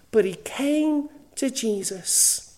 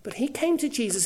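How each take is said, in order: First: Slowed down, leaning on came; slow emphatic repeat. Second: Said in the usual way. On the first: Acted. Preacher repeating the swindler's turn, slow and emphatic. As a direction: draw it out, weighty and deliberate.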